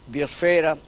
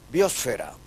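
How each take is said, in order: First: The stress falls on the second-to-last syllable. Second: The stress falls on the third-to-last syllable. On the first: This is the usage in Spain. "Los españoles allá usan la palabra como uh, llana" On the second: This is the usage in the Americas. "En el español americano, por analogía con atmósfera, el uso es esdrújulo"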